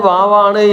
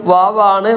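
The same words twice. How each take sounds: No difference in how they are said.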